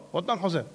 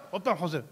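Both takes have the same delivery.

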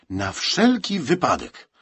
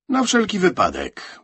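First: Slow, high stress on "wszelki"; drawn-out, firm "wszelki wypadek"; emphatic. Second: High, loud quick justification; high-pitched, louder answer; insistent answer. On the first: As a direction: close the matter, leaning on "wszelki". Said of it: "z naciskiem zakończył sprawę Bednarczyk". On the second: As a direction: offer it up in a raised voice. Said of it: "powiedział Franek". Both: A narrator's reading.

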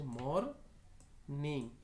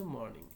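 First: MORNING split as মর, pause, নিং; syllable by syllable. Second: Said in the usual way. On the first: Shown as a demonstration. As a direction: say মরনিং slowly in two separate parts. Word built from two syllables.

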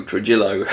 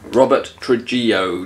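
First: "Trujillo" with sounded L, tru-JILL-oh; unsure pronunciation. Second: "Trujillo" with silent Ls, tru-JEE-oh; unsure pronunciation. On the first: Host retrying the bass player's name, unsure, "[name]" as tru-JILL-oh. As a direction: say "Trujillo" ending in "ill-oh". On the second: Host unsure of the new bass player's name, trying "Trujillo" as tru-JEE-oh. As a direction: say "Trujillo" ending in "ee-oh". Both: Real, not acted. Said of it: "I don't know".

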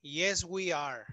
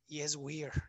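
First: "we are" as two separate, full words; uncontracted we are. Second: "we are" run together as "we're"; contracted we are. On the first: Teacher correcting the short answer, "we are" said in full. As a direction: slowly separate "we" and "are", no contraction. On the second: Teacher showing the odd-sounding short answer, "we are" contracted to "we're". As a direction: say "we are" as one contracted syllable. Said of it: "se oye muy weird". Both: Shown as a demonstration.

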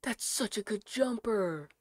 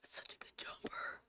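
First: Said in the usual way. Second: Breathy awed whisper. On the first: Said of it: "first take, said normally". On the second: Real, not acted. Streamer to chat admiring the sweater, whispering. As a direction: whisper it in longing.

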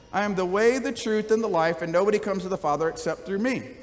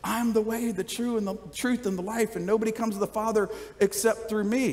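First: A touch of harsh, dismissive edge on "I am the way"; meanly said. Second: Softer, gentle "I am the way, the truth, and the life"; said nicely. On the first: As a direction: deliver the claim curtly, a bit faster, like a put-down. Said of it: "you could say it very meanly". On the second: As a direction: offer it kindly, softly, as an invitation. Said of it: "or you could say it very nicely". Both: Shown as a demonstration.

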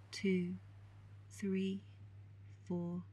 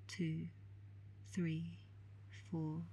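Both takes have the same delivery.

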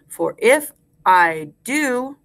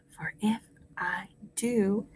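First: Slow, full voice; slow rhyme recitation. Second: Whispered echo. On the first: Teacher gives class a line to repeat, slow and clear. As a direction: space out each word for repeating. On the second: Teacher leaves room for class to repeat, whispering. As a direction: whisper along word by word. Quiet echo of modelled line. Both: Shown as a demonstration.

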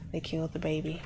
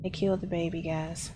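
First: Lower, softer stunned repeat. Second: Said in the usual way. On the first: Real, not acted. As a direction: let it sink in, drop your voice.

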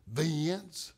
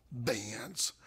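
First: Vince drawn out into two syllables, Vin-ce. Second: Vince said softly with a lift at the end; softer Vince, rising. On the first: Mother at the bedside, Vince in two syllables. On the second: Mother repeats to her son in a coma, softly rising. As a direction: call Vince gently, rising. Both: Retold or imitated. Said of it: "two syllables".

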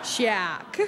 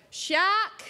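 First: Shark clipped short, falling low. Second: Shark with a long drawn-out Australian aaa. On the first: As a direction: say Shark quick with a short vowel. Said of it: "measure out how big we think the bloody thing was". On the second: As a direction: stretch the vowel in shark out long and high. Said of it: "long vowel sounds in my accent". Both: Shown as a demonstration.

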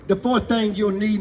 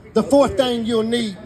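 First: Said in the usual way. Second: Fourth punched loud and slow; slow, loud emphasis on fourth; stress on fourth. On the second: Shown as a demonstration. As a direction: land hard on fourth.

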